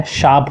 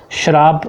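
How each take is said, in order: First: "शाप" with no r; correct pronunciation. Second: "श्राप" with an r after sh; wrong pronunciation. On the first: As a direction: say "शाप" as shaap. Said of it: "शाप होता है सही शब्द". ("शाप" का सही उच्चारण, बिना र के) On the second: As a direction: say "श्राप" slowly as shraap. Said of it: "श्राप गलत है". ("श्राप" में र, गलत उच्चारण) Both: Shown as a demonstration.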